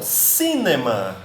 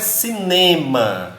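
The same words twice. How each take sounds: First: The stress is on the first syllable. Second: The stress is on the second syllable. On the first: The speaker calls it right. "na língua inglesa nós damos uma tonicidade bem maior para o I" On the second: The speaker calls it wrong. "A gente dá uma tonicidade para o E"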